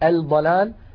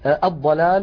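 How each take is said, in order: First: The L is pronounced clearly before the consonant. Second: The L merges into the doubled next consonant. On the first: The speaker calls it wrong. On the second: The speaker calls it right.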